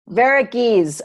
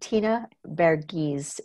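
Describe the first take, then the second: First: Every vowel sound of the name is said. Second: One vowel sound of the name is left out. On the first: The speaker calls it right. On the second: The speaker calls it wrong.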